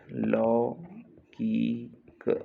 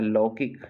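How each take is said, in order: First: "लौकिक" very slow, in three pieces; split slowly for dictation. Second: Said in the usual way. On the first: Shown as a demonstration. Teacher dictating a spelling, लौकिक sound by sound.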